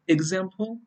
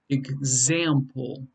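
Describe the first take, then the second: First: The stress is on the first syllable. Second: The stress is on the second syllable. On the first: The speaker calls it wrong. "It's not example" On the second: The speaker calls it right. "it's the second syllable that's stressed"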